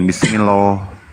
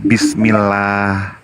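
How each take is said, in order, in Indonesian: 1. l dalam Allah itu tebal dan penuh. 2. l dalam Allah itu tipis dan ringan. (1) "bukan bismillah" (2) "maka pelafalannya itu bismillah"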